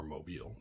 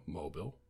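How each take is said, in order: First: "Mobile" with a long ee, moh-BEEL; alternative pronunciation. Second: "Mobile" with a short, weak last syllable, MOH-bil; one of two pronunciations. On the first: Offering the other reading, "Mobile" as moh-BEEL. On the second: Reading a word list, "Mobile" as MOH-bil. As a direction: say "Mobile" to rhyme with noble. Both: Shown as a demonstration. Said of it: "depending if you're talking about the city or".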